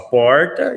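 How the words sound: It is said in a São Paulo accent. "O paulista fala porta"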